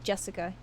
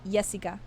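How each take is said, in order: First: The name is said with an English pronunciation. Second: The name is said with a Dutch pronunciation. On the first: "instead of Jessica" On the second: "In Dutch, you would say Jessica"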